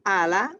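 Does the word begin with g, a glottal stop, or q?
glottal stop. It begins with a glottal stop, Egyptian style.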